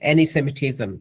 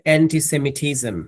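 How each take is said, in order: First: The 't' in 'anti' is dropped. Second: The 't' in 'anti' is pronounced. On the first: "টিটা Australian অ্যাকসেন্টে missing" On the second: "so সাউন্ডটা কি ছিল অ্যান্টিসেমিটিজম?"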